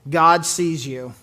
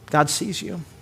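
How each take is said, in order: First: It sounds threatening and invasive. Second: It sounds warm and comforting.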